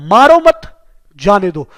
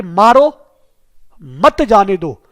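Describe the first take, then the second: First: "मारो मत" run together, then a pause, then "जाने दो" falling; pause after मत. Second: "मारो" then a long pause, then "मत जाने दो" slowly; pause after मारो. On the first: Teacher contrasting the comma placement for students, pause after "मत". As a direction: break after "मत", not after "मारो". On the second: Teacher showing students where the comma goes, long pause after "मारो". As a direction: break clearly after "मारो", as if a comma follows it. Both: Shown as a demonstration. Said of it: "जैसे मैंने कई बार बताया है कि".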